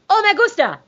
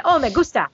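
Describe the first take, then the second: First: High-pitched Spanish accent. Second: Said in the usual way. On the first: Shown as a demonstration. Showing how you do a Spanish accent, high Spanish lilt. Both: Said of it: "That's how you do a Spanish accent".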